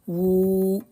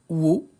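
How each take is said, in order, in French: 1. La voyelle après w est longue. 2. La voyelle après w est courte. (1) "c'est un waw qui sert à la prolongation. Donc, on va dire ou" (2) "Le waw avec damma, wo"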